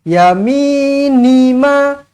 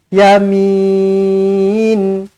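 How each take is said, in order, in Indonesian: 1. Kata ini berakhir dengan vokal pendek. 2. Vokal panjang, berakhir dengan konsonan. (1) "Kalau kita sambung" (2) "kalau kita berhenti, kita akan panjangkan lagi ya kosong ni dan kita akan matikan nun"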